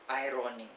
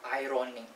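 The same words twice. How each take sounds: First: No R sound is pronounced after the first vowel. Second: An R sound is pronounced after the first vowel. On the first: The speaker calls it right. "The normal way of pronouncing it is without the R" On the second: The speaker calls it wrong. "Not ironing"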